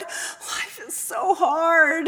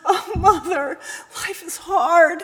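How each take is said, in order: First: Very slow, trailing lament; fading sob. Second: Groaning son. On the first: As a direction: let the sob die away. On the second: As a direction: sob it into her shoulder. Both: Acted. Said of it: "he groaned".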